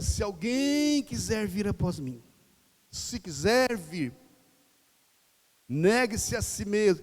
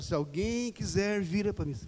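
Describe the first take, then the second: First: Slow, weighty, each phrase set apart; Jesus' call said slowly and gravely; solemn invitation. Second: Said in the usual way. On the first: Shown as a demonstration. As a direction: let the invitation land slowly. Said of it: "Pra Jesus, ele fala". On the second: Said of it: "Jesus não fala assim, ele fala".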